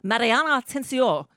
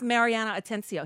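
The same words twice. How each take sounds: First: The name is said with a Spanish-style pronunciation. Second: The name is said with an English-style pronunciation. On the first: "He's Mariana Atencio" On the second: This is how the person says her own name. "who calls herself Mariana Atencio"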